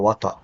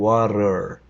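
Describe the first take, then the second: First: It is said in a British accent. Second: It is said in an American accent.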